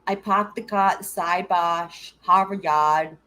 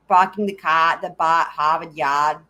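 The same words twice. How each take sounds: First: Slow, drawn-out Boston vowels with no r's; mock Boston accent. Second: Dropped r's, broad Boston vowels; Boston accent. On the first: Streamer mimicking the requested Boston accent, drawn out. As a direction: stretch it out like a hammed-up Bostonian. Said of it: "did you not hear him do that". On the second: Retold or imitated. Viewer's Boston accent quoted back on stream, dropped r's. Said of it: "doing your accent in the Discord".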